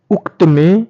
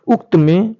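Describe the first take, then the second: No difference in how they are said.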